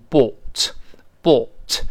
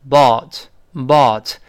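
First: British "bought" with pouted, rounded aw. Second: American "bought" with an open, sighing ah. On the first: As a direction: say "bought" slowly, lips pushed out, British style. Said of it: "英国人会读成bought". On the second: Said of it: "但是美式发音呢". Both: Shown as a demonstration.

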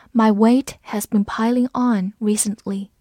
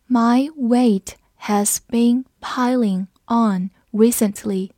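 First: Said in the usual way. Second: Slow, word-by-word teacher reading; slow read-along. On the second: Shown as a demonstration. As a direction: say it slowly with a gap after each word. (慢读，每个词分开念) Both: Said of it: "我们慢读一遍".

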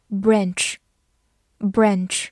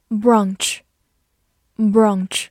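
First: "branch" with a front short-a vowel, as in "cat"; American pronunciation. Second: "Branch" with a long open "ah" vowel; British pronunciation. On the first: Teacher gives learners the American pronunciation, "branch" with short-a. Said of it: "美式发音读作". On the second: Teacher models the word for learners, British "Branch" with long ah. British take before American version shown. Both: Shown as a demonstration.

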